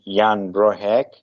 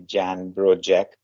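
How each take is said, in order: First: The surname's last syllable starts with an h-like sound. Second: The surname's last syllable starts with a j-like sound. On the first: The speaker calls it right. "I think the pronunciation should be" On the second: The speaker calls it wrong. "the not, not so good pronunciation would be"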